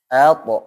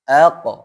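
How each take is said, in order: The two takes are said the same way.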